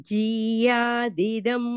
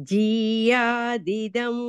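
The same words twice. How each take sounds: No difference in how they are said.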